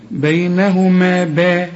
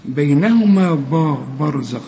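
First: "با" thin, as in the word "باب"; light ب. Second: "برزخ" with a heavy, full-mouthed ب. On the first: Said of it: "شوف با زي ما تقول باب". ("با" مرققة زي "باب") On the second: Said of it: "ما تقولش برزخ". ("برزخ" بباء مفخمة خطأ) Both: Shown as a demonstration.

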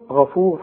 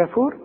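First: غفور opening on a dark, backed "gha"; correct heavy Ghayn. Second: غفور as a thin, questioning "ghaefur"; wrongly thin Ghayn. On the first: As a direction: thicken the first vowel of غفور. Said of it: "والصح". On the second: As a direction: front the first vowel of غفور and lift the end. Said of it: "هتقول إيه غفور؟". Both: Shown as a demonstration.

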